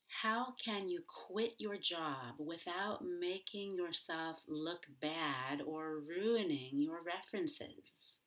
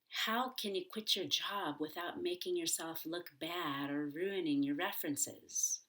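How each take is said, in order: First: The question is spoken slowly and carefully. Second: The question is spoken quickly and smoothly. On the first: The speaker calls it wrong. "the slow version of my question" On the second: The speaker calls it right. "the fast version"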